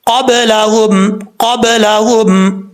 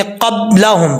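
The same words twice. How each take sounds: First: क़ब्लहुम slowly, b bounced with qalqala echo; the right way: क़ब्लहुम with a b echo; correct pronunciation. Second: क़ब्लहुम with lips fully closed on b, no echo; the wrong way: क़ब्लहुम with a shut b; wrong pronunciation. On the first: Teacher demonstrates correct qalqala in क़ब्लहुम. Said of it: "कैसे पढ़ेंगे?". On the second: Teacher shows the wrong reading without qalqala. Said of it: "तो गलत है". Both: Shown as a demonstration.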